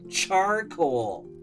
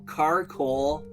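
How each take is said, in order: First: The word begins with a ch sound. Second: The word begins without a ch sound. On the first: The speaker calls it right. "it's ch, charcoal" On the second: The speaker calls it wrong. "we don't go carcoal"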